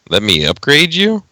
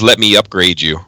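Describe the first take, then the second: First: The voice rises at the end like a question. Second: The voice falls at the end like a statement.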